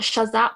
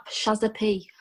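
First: "Shazap" run together as one word with no break; wrong pronunciation. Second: "Shazza P." as two parts, Shazza then a clear separate P; correct pronunciation. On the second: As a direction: say "Shazza P." and set the P apart. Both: Shown as a demonstration. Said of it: "Everyone says it dead wrong".

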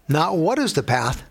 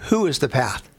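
First: "what" lightly stressed, set against "who". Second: "who" stressed, set against "what". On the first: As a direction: lean on "what" as the wrong question. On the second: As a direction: lean on "who" as the right question. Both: Shown as a demonstration.

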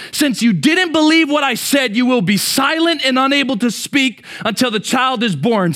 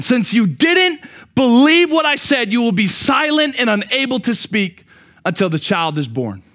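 First: Said in the usual way. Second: "didn't" hit hard, slower and louder, each word weighed; emphatic slow rebuke. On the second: Shown as a demonstration. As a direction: lean on "didn't" and slow the whole sentence down. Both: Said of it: "So I wanna make sure we get it".

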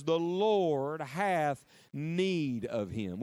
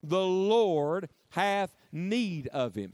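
First: Very slow, each word weighed; slow solemn reading. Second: Chanted, very slow, words drawn out; chanted, lead the room in saying it slowly; slow congregational chant. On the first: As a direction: read it slowly like scripture. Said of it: "underline those six little words". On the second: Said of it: "Would you say that with me". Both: Shown as a demonstration.

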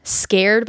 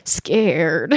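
First: Said in the usual way. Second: "scared" said lower and drawn out, eerie; weird device voice. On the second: Retold or imitated. Ghost device saying "scared", eerie low imitation. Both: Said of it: "like, really weird".

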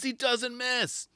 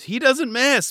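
First: Higher, softer, very slow knowing call; higher softer very slow mock commentator. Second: Much higher and louder confident call; higher louder mock commentator. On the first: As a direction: drag it out softly, smug. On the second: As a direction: belt it like a cocky commentator. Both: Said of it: "But it was hilarious".

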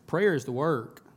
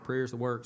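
First: A loud preacher's punch on "Prayer"; stress on prayer. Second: Said in the usual way. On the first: Real, not acted.

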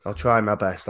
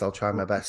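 First: Said in the usual way. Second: A hint of sultry, hoarse and low; low, husky try at sexy. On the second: Shown as a demonstration. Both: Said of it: "we'll keep you sexy".

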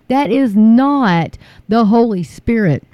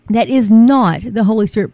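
First: Slow, every word weighted; slow deliberate "That is not the Holy Spirit"; slow emphatic. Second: Louder, punching "not"; louder repeat stressing "not"; louder insistent. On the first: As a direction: lay it down word by word. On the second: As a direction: hammer the word "not". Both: Real, not acted. Preaching against false revival.

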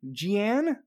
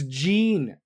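First: Jeanne said as zhee-ANN, unsure rising; trying Jeanne as zhee-ANN, questioning; wrong guess at the name. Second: Jean said slowly as plain JEEN; Jean, settled as JEEN, slow and sure; corrected name. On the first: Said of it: "how do you spell this". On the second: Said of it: "Jean is pronounced". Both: Shown as a demonstration.

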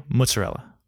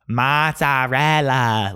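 First: Mozzarella said quickly as muts-uh-RELL-uh; normal pronunciation. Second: Put-on very slow, overblown Italian accent, MAA-TSAA-REL-LAA; douchey Italian accent. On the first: Shown as a demonstration. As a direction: say mozzarella simply, with short American vowels. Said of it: "Say mozzarella". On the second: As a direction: ham up the Italian, stretching every vowel. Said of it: "does that sound like the way people say it".

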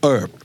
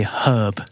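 First: HERB as erb; dropped h in "herb"; American, silent H. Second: HERB with the h sounded; British "herb", breathed h. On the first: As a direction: say "herb" without the h. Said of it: "don't pronounce the H sound". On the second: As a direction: say "herb" as hurb, no r. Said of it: "with an H sound". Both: Shown as a demonstration.

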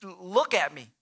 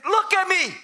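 First: Low-pitched sarcastic remark; understated, incredulous jab. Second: High-pitched indignant outburst; acted angry command; angry, arrogant. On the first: Acted. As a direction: point out the obvious with mild sarcasm. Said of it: "maybe that's the sarcastic tone". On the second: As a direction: demand it with hateful scorn. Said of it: "maybe there was an angry tone".

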